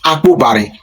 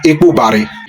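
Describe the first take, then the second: First: The word begins with an A sound. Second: The word begins with an E sound. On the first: This is how one community says it. "there are some that that pronounce it Akbubari" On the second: This is how another community says it. "there are some that pronounce it Ekbubari"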